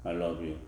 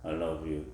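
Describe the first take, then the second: First: It is said in a flat monotone. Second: The same.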